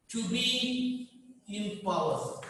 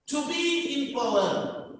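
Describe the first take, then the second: First: Very slow, softer dictation; drawn-out words with a gap, quieter; dictation repeat. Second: Slow, higher-pitched heading; slow and raised, as a heading; announcing a point. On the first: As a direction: repeat it softly, drawn out for note-takers. Repeats it while students underline. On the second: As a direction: announce the key point slowly. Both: Real, not acted.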